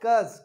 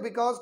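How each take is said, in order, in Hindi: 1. शब्द छोटा होकर एक सिलेबल में बोला जाता है। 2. शब्द पूरा बोला जाता है, दो सिलेबल में। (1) "बिकॉज को शॉर्ट में क्या बोला जाता है?" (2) "जैसे आप बिकॉज बोलते हैं"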